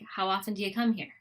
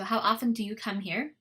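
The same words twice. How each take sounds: First: The words are said with schwa, reduced vowels. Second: The words are said with full, careful vowels.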